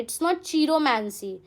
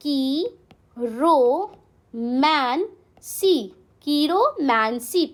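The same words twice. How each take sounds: First: Chiromancy said the wrong way, with a ch sound; wrong pronunciation. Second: Chiromancy drawn out very slowly, starting with a k sound; correct pronunciation. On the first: Teacher showing students the wrong way to say chiromancy. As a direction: mispronounce chiromancy as a warning. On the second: Teacher modelling the right chiromancy for students. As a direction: spell out chiromancy slowly for the class. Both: Shown as a demonstration. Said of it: "It's not chiromancy, it's".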